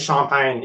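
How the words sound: The word is pronounced the French way. The speaker calls it right. "as opposed to champagne in French"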